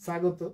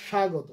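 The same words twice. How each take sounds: First: স্বাগত as sa-go-to with plain s; wrong dental s. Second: স্বাগত as sha-go-to; correct palatal sh. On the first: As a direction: demonstrate wrong স্বাগত, s in place of sh. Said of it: "না". (স্বাগত, ভুল করে দন্ত স) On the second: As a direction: begin স্বাগত with a clear sh. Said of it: "তালব্য স". (স্বাগত, তালব্য শ দিয়ে) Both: Shown as a demonstration.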